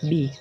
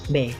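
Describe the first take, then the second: First: The letter is said as 'bee'. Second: The letter is said as a plain 'beh'. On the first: This is the English letter name. "kalau dalam bahasa Inggris, B itu kita ucapkan B" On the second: This is the Indonesian letter name. "kita mengucapkannya itu B biasa"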